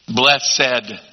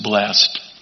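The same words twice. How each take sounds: First: The ending is sounded as a separate syllable. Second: The ending is not sounded as a syllable. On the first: "One of those words we still pronounce the E-D on" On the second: "not just blessed"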